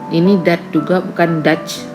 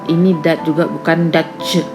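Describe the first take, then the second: No difference in how they are said.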